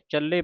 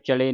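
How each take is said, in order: First: The l sound is doubled and held tightly. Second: The l sound is single and said lightly. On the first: The speaker calls it right. "ਚੱਲੇ ਪਾਠ ਕੱਸ ਕੇ ਹੈ" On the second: The speaker calls it wrong. "ਇਹਨੂੰ ਚਲੇ ਨਹੀਂ ਕਹਿਣਾ"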